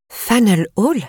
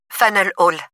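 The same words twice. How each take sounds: First: «Hall» monte bien plus haut, en question étonnée; répéter «Faneuil Hall» avec stupeur; incrédule. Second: Said in the usual way. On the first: A narrator's reading. Narratrice stupéfaite répète le lieu. («Faneuil Hall?» incrédule, montée aiguë)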